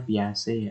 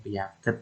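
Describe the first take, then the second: First: The name ends with a soft 'zhay' sound. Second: The name ends with a hard 'get' sound. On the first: The speaker calls it right. "Bacanya kan yang betulan piase" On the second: The speaker calls it wrong. "Kalau yang baru awal-awal yang bacanya piaget"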